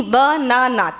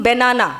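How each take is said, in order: First: বানানা broken into three separate syllables. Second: Said in the usual way. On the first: Shown as a demonstration. Teacher counting syllables for the class, বানানা split in three. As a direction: slowly space out each beat of বানানা. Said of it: "তিনটে syllable হলো". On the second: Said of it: "যখন আপনি উচ্চারণ করছি".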